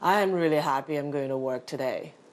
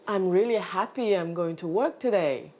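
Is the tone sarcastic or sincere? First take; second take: sarcastic; sincere. First: It sounds sarcastic and not genuinely pleased. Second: It sounds sincere and genuinely pleased. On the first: The speaker does not want to go to work. "you know I'm being sarcastic" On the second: The speaker is truly glad to go to work. "you probably think I'm truly happy that I'm going to work today"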